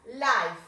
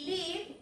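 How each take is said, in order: First: "life" with an "eye" vowel and f; contrast with live. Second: "live" with a short i, "liv"; contrast with life. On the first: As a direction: clearly model "life" as "laif". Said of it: "Esto es vida". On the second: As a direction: softly model "live" as "liv". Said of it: "live es vivir". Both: Shown as a demonstration.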